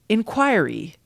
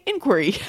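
First: The stress is on the second syllable. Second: The stress is on the first syllable. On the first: "the most common pronunciation is with the stress on the second syllable" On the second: "I always say inquiry"

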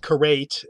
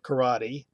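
First: The final E is silent. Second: The final E is pronounced. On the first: The speaker calls it wrong. "Or be karate instead of" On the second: The speaker calls it right. "instead of karate"

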